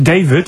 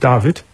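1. Der Name wird englisch ausgesprochen. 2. Der Name wird deutsch ausgesprochen.

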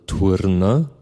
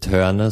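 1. Der Name wird mit einem deutschen u-Vokal ausgesprochen. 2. Der Name wird mit einem englisch klingenden Vokal ausgesprochen.

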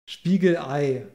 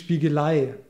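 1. Eine kurze Pause trennt Spiegel von Ei. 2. Spiegel geht ohne Pause direkt in ei über. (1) "dass man ja auch sagt, Spiegelei" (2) "und nicht Spiegelei"

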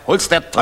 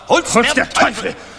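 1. Sie wird in normaler Lautstärke gesprochen. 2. Sie wird am lautesten gesprochen, fast geschrien.

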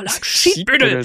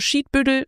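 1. Das Wort wird in einem harten, schimpfenden Tonfall gesagt. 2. Das Wort wird in einem süßen, liebevollen Tonfall gesagt. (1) "oder du, oh" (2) "kann süß sein"

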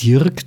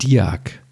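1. Der Name wird mit r-Laut gesprochen. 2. Der Name wird ohne r-Laut gesprochen. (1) "der sagt nicht Dirk" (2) "der sagt Diak ... ohne R"

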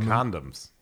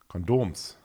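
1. Das Wort wird englisch ausgesprochen. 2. Das Wort wird deutsch ausgesprochen.

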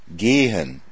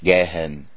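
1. Das erste e wird lang gesprochen. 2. Das erste e wird kurz gesprochen. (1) "Das Polnische hat kein langes E" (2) "Nicht gehen"

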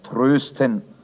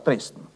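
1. Der erste Vokal ist ein gerundetes ö. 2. Der erste Vokal ist ein ungerundetes e. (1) "Der Pfarrer in der Kirche spricht vom Trösten" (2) "außerhalb der Kirche wird daraus Dresden"

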